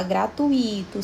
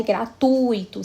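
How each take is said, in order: First: "gratuito" said gra-tu-I-to, U and I split; wrong stress on I. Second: "gratuito" slow, long strong U in gra-TUI-to; stress on U. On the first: Teacher shows class the mistake, "gratuito" stressed on the I. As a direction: break the diphthong in "gratuito", leaning on the I. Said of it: "não está certo". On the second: Teacher models correct word for class, "gratuito" stressed on TU. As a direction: stretch the U of "gratuito", I gliding after it. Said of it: "especialmente no u". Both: Shown as a demonstration.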